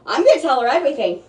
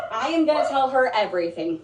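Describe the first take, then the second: First: Fast burst with a pitch jump on "gonna"; quick, emphatic. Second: "am" stressed, then a steady falling line; measured restatement with "am" emphasized. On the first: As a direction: rattle it off, leaping up on "gonna". Repeats the same promise more deliberately. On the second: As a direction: lean on "am" and say it deliberately. Restates it with full "I am. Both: Real, not acted.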